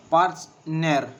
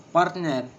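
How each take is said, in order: First: Partner drawn out as part-ner, first beat stressed; slower, syllables apart. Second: Said in the usual way. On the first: Shown as a demonstration. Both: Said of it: "And the two syllables".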